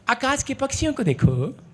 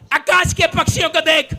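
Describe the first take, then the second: First: It is read in a soft, loving tone. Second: It is read in a sharp, scolding tone.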